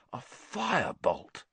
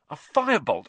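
First: Awed. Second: Thrilled. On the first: Wood savours the word. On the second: Wood thrilled by the broom. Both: Acted.

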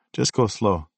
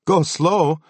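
First: Said in the usual way. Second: Higher and louder, outraged; angry disbelief. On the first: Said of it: "he said, and turned". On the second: Retold or imitated. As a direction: fire it back in disbelief. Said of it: "I shot back".

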